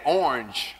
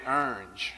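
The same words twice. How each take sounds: First: Said in the usual way. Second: "orange" squashed into one syllable, "ernge"; country mispronounced orange. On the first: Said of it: "I couldn't say orange". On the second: Retold or imitated. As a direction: say "orange" as "urnj", with an er vowel. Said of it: "I would say orange".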